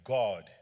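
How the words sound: It is said in a British accent.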